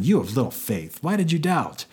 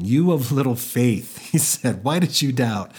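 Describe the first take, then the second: First: Mock scolding, pitch jumping high on the question. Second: Amused, acted laughing through the words; laughing Jesus. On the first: Jesus to Peter after catching him, scolding. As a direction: scold him with an exaggerated rising reproach. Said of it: "what it sounds like here is that he scolded him". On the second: Movie Jesus to Peter back in the boat, laughing. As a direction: tease him lightly through a chuckle. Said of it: "while laughing".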